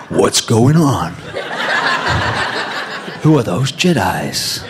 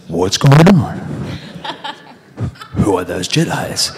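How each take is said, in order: First: Giggling through the audition line; laughing line reading. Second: Louder, breaking into laughter mid-line; can't hold the line for giggling; laughing again. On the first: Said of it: "I couldn't get the Fugees out of my head". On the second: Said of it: "So I was going". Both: Retold or imitated.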